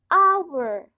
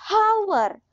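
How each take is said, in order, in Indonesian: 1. Kata ini diawali dengan bunyi vokal, h diam. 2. Kata ini diawali dengan bunyi h yang diucapkan. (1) "tapi hour" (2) "Hour bukan dibaca hour"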